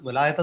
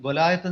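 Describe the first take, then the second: First: The second syllable sounds like 'lie'. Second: The same.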